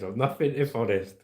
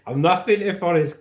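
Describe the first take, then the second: First: Said in the usual way. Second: Punched out, louder and higher; emphatic declaration. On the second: Real, not acted. Streamer proclaiming his catchphrase to viewers, loud and high. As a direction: announce it proudly to the chat.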